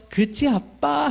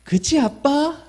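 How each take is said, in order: First: Put-on slow, higher trusting child's question; lightly voiced little girl, drawn out; child asking dad. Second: Put-on higher trusting child's question at normal pace; lightly voiced little girl asking her dad. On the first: Recalling daughter's question. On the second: Shown as a demonstration. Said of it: "여러분, 한번 해볼까요?".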